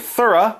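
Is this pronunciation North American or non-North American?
non-North American. It is said in a non-North American accent.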